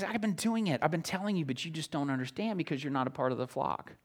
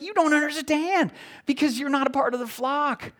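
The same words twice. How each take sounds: First: Soft, hushed patient explaining; gentle Jesus quote. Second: Higher, emphatic exasperated reply; animated Jesus quote. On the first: Preacher voicing Jesus softly to the unbelieving crowd. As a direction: speak it softly like a patient teacher. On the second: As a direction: press the point home to doubters. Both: Retold or imitated.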